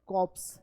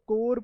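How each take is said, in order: First: The final p and s are pronounced. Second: The final p and s are silent. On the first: The speaker calls it wrong. "We don't call it कॉप्स" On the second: The speaker calls it right. "इसको कोर pronounce करते हैं"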